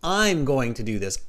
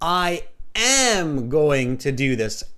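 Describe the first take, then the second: First: 'I am' is contracted to 'I'm', less emphatic. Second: 'I am' is said in full, with emphasis. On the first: The statement sounds natural and unemphatic. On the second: The speaker stresses the statement more strongly.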